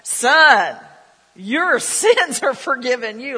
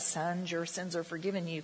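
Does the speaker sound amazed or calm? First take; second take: amazed; calm. First: It is said in an amazed, wide-eyed manner. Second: It is said in a calm, plain manner. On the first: The speaker calls it right. "he's got his eyes are big and he's like" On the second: The speaker calls it wrong. "I can't ever read that in a son, your sins are forgiven you kind of way"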